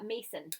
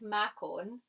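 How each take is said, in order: First: The middle consonant is a soft s sound. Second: The middle consonant is a hard k sound.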